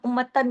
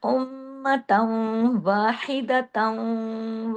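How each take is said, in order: First: उम्मतन said quickly with a plain final n; wrong उम्मतन, no nasal hold at the end; unmerged tanween. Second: उम्मतन वाहिदतन very slow, endings held as nasal hums; chant-like उम्मतन with long m and merged n; merged tanween, ghunna. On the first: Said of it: "उम्मतन नहीं पढ़ेंगे". (उम्मतन बिना इदगाम, साफ नून के साथ) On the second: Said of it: "ऐसे हो जाएगा". (उम्मतन वाहिदतन, इदगाम और लंबे गुन्ने के साथ) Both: Shown as a demonstration.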